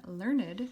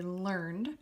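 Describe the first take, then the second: First: Learned said LUR-nid, with the -ed sounded; learned as two syllables. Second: Learned said as one syllable, lurnd. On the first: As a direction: give learned a separate second syllable. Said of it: "a syllable that normally wouldn't be pronounced". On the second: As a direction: end learned straight on the D, no separate -ed. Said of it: "you're not pronouncing this last part". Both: Shown as a demonstration.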